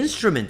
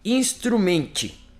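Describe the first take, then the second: First: It is read with English pronunciation. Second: It is read letter by letter with Portuguese sounds. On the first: The speaker calls it right. "Agora eu li em inglês" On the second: The speaker calls it wrong. "Esse eu entendi, instrumente"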